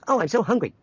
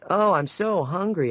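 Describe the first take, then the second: First: The pace sounds squeezed or stretched by machine. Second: It is said at a natural pace.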